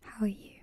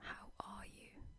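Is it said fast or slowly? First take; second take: fast; slowly. First: It is said very fast. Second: It is said slowly and carefully.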